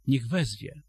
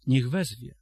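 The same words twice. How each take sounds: First: "Niech" hit hardest, "wezwie" falling away; stress on niech. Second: "wezwie" pushed loud with a falling end; stress on wezwie. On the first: Preacher to the church, pressing on "Niech". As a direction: land the weight on "Niech", let "wezwie" drop. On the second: Preacher repeats the verse, now pressing on "wezwie". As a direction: hammer "wezwie" as the key word. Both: Shown as a demonstration.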